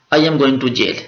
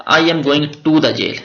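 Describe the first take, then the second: First: Said in the usual way. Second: "the" said slowly and clearly in "I am going to the jail"; slow contrast take stressing "the"; slow demo with the. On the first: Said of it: "I am going to jail इसका मतलब है कि वाकई मैं जनाब jail जा रहा हूँ". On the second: Shown as a demonstration. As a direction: draw out "the" before "jail" to contrast. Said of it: "अगर I am going to the jail purpose same है".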